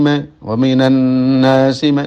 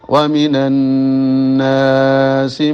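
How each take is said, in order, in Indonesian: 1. Dengung dipendekkan sesuai panjang vokal. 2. Vokal panjang dipanjangkan sesuai panjang dengung. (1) "Kalau dengung menyesuaikan dengan mad tabi'i" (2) "Kalau sebaliknya mad tabi'i menyesuaikan dengan dengung"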